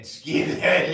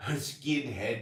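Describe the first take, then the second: First: Mock dad call. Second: Said in the usual way. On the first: Dad joking about Russell Crowe.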